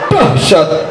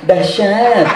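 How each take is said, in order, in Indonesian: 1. Kata itu diucapkan keras dan bertenaga. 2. Kata itu diucapkan pelan dan lemah. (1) "Namanya dahsyat ya dahsyat" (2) "Banci kok jenenge"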